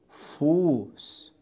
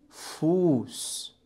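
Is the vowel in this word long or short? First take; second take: long; long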